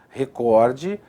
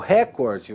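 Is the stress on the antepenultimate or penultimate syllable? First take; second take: penultimate; antepenultimate. First: The stress is on the second-to-last syllable. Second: The stress is on the third-to-last syllable. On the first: The speaker calls it right. "essas palavras possuem a pronúncia correta" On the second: The speaker calls it wrong. "normalmente transformadas em proparoxítonas... Errado"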